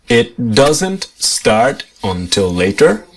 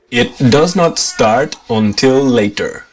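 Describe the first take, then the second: First: Does not is contracted to one syllable. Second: Does not is said as two full words.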